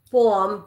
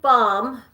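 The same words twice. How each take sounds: First: Baum said with a rounded "aw"; alternative pronunciation. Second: Baum said with an open "ah"; alternative pronunciation. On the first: Host second-guessing an author's surname, Baum pronounced "bawm". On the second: Host trying out an author's surname, Baum pronounced "bahm". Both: Shown as a demonstration. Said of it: "however you pronounce it".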